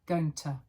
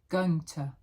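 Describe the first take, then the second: Both takes have the same delivery.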